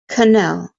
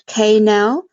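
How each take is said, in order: First: The first vowel is a short uh sound. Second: The first vowel is a full vowel. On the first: The speaker calls it right. "So canal" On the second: The speaker calls it wrong. "not canal"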